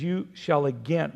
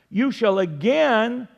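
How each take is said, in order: First: Said in the usual way. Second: "again" drawn out slowly and raised in pitch; stress on again. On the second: Real, not acted. Preacher has listeners underline the word, stressing "again" slowly and higher. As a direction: lean long and high on the word "again". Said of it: "underline that word again".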